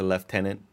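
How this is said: The word has a British pronunciation. "which is how the British say it"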